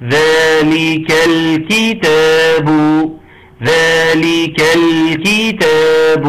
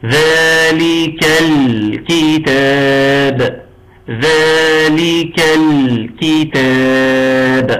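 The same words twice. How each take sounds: First: Slow ذلك الكتاب with the lam in الكتاب pressed clear and middle; slow correct recitation; balanced lam. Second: Very slow ذلك الكتاب with the lam in الكتاب too soft; drawn-out faulty recitation; soft lam demo. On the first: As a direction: hold الكتاب with a firm, clear لام. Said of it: "عاوزين التوسط". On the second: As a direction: drag out الكتاب with a loose, over-soft لام. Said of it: "أقرأها لكم". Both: Shown as a demonstration.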